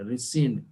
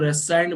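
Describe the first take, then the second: First: "रेसेंड" with a short second vowel, like "sind"; सही उच्चारण. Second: "रेसाइंड" में बीच का स्वर "आइ"; गलत उच्चारण. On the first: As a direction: say "रेसेंड" as ri-SIND, no "sigh" sound. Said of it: "रेसेंड है इसका प्रोनाउंसिएशन". ("रेसेंड", दूसरा हिस्सा छोटा "सिंड") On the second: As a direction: say "रेसाइंड" with a long "sigh" in the second syllable. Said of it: "कई लोग रेसाइंड बोल देते हैं". ("रेसाइंड", दूसरा हिस्सा "साइंड" जैसा) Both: Shown as a demonstration.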